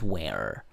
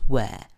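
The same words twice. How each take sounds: First: It is said with an American accent. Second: It is said with a British accent.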